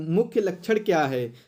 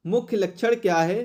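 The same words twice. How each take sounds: The two takes are said the same way.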